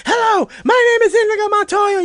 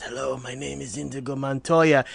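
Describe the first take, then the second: First: High, loud desperate yell; screaming. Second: Barely gets the words out, exhausted; quiet, drained. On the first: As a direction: scream it with the last strength. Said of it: "he just starts screaming it". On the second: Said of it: "summons the strength and says". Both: Retold or imitated.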